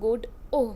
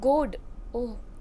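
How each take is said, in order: First: The stress is on the second syllable. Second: The stress is on the first syllable. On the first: "stress the second" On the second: "stressing the first syllable"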